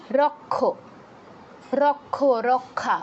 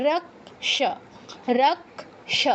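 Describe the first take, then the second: First: রক্ষ said as "rokkho" with a doubled kh; the Bengali reading: রক্ষ as rokkho. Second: রক্ষ said "rakSH" with k then sh; k sound first, then sh, in রক্ষ; Sanskrit way. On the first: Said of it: "এরকম বলি". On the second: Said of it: "উচ্চারণটা ওটাই হবে". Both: Shown as a demonstration.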